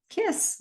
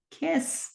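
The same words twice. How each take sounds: First: Put-on high little-boy whine for a kiss; mock man-child pleading, much higher; childlike demand. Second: Put-on high little-boy whine for a kiss again; imitating a sulking man-child, much higher; childlike demand. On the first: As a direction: ask for it like a spoiled child. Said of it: "he's like". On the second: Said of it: "He's like".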